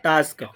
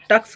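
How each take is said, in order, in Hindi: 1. स्वर एक लंबी 'ah' ध्वनि है। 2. स्वर एक छोटी 'uh' ध्वनि है। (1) "इसको बोलेंगे टास्क" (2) "इसको टक्स नहीं करके"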